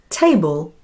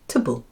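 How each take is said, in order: First: The vowel is a full, clear vowel. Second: The vowel is reduced to a schwa. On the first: The speaker calls it wrong. "instead of saying table" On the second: The speaker calls it right. "because the vowel is unstressed and so takes on the sound uh"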